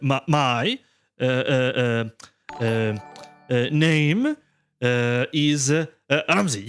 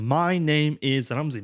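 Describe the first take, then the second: First: The sentence is broken by many hesitations. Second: The sentence flows smoothly without breaks. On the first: The speaker has not practised enough. The speaker calls it wrong. "No, that's not enough" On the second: The speaker has practised enough. The speaker calls it right. "to the point that it sounds natural"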